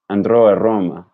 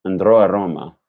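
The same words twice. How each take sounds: First: Andrò a Roma with a tapped Italian r; Italian pronunciation. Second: Andrò a Roma with an American r in andrò and Roma; andrò a Roma like an English speaker; English-sounding version. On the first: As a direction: say Andrò with a quick flicked r, Roma with a clean rolled r. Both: Shown as a demonstration. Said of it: "Andrò a Roma sounds like".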